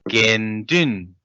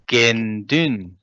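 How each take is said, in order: The two takes are said the same way.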